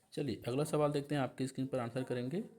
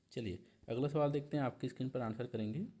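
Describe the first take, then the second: Both takes have the same delivery.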